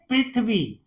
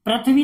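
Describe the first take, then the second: First: "पृथ्वी" with a short "ri", as "prithvi"; correct reading. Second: "पृथ्वी" with an "a" after the r, as "prathvi"; wrong reading. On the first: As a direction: say "पृथ्वी" with "pri", falling at the end. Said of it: "उसको क्या बोलते हैं". ("पृथ्वी" में "रि" की आवाज़) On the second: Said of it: "नहीं पढ़ते". ("पृथ्वी" को "प्रथ्वी" पढ़ना) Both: Shown as a demonstration.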